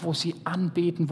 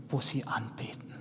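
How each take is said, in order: First: Said in the usual way. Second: Breathy hushed whisper, trailing away; hushed, secretive whisper. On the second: Shown as a demonstration. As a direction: drop to a whisper on wo sie anbeten. Worship line repeated as whisper.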